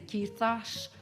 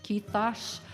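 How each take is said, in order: No difference in how they are said.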